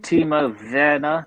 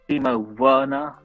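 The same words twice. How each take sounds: First: The surname begins with a V sound. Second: The surname begins with a W sound. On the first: The speaker calls it right. "the Germans pronounce the W as a V" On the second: The speaker calls it wrong.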